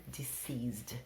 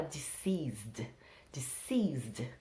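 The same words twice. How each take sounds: First: Deceased said di-SEEZD, very softly; deceased breathed out gently, di-SEEZD. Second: Deceased said di-SEEZD, soft and slow; deceased, di-SEEZD, stress on the second syllable; deceased pronunciation. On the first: Teacher repeating deceased quietly for the class. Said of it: "uma palavra mais bonita". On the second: Teacher modelling the word deceased for the class. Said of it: "é uma palavra um nível acima". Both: Shown as a demonstration.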